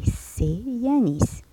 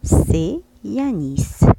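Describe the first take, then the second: First: C'est Yanis said slowly with higher pitch; teacher repeating for pupils; slow careful French. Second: C'est Yanis, spelled-out liaison said slowly; teacher modelling French; slow careful French. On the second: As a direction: sound out C'est Yanis syllable by syllable. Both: Shown as a demonstration. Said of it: "E S T".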